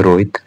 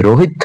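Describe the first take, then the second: First: रोहित clipped to one quick beat, dropping low; short one-beat Rohit. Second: रोहित with the final vowel held for two beats; two-beat Rohit. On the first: Teacher showing students the short vowel, clipped रोहित. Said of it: "एक मात्रा की ह्रस्व संज्ञा". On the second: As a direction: stretch the end of रोहित. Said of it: "दो मात्रा लगती है". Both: Shown as a demonstration.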